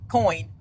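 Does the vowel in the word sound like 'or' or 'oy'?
oy. The vowel sounds like 'oy', as in boy. "not corn"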